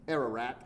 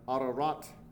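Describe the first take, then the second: First: The name is said in an English accent. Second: The name is said in a native-style pronunciation. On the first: "is how we say it with our crazy English accent" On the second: "But Ararat is the name of this place"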